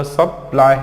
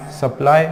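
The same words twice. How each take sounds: First: सप्लाई broken as सप-लाई; break between syllables. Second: Said in the usual way. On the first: Shown as a demonstration. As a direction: stop briefly after सप in सप्लाई, then let लाई fall. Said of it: "यहाँ पे break करना है". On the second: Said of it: "देखो इनको पढ़ना कैसे है".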